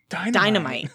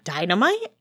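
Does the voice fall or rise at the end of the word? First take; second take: falls; rises. First: The voice falls flatly at the end. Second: The voice rises at the end. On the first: It is stated as a plain fact. "it wasn't a question. it was dynamite" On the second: It is asked as a question. "Not dynamite"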